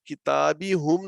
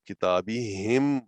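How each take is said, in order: First: The final syllable has a u vowel. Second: The final syllable has an i vowel. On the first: The speaker calls it wrong. "नहीं बोला जाएगा" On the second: The speaker calls it right. "बोलने में आसानी की वजह से के लिए हम इसको किताबी हिम बोलेंगे"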